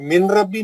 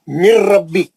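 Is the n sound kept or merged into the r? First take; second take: kept; merged. First: The n sound is clearly pronounced before rabbi. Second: The n merges fully into a doubled r. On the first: The speaker calls it wrong. "अब तक पढ़ते थे मिन रब्बी पढ़ते थे, मिन रब्बी नहीं है वो" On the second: The speaker calls it right. "नून नहीं पढ़ेंगे, नून रा के अंदर सख्ती से इदगाम होके गायब हो गई"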